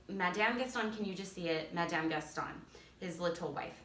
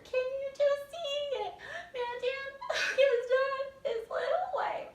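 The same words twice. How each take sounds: First: Said in the usual way. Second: Very high, slow, loud despairing whine; hammed-up jealous misery, slowly; high mock-despair with a sob; over-the-top disgust. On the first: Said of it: "So silly girls will say". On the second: Shown as a demonstration. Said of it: "So you guys are just over the top".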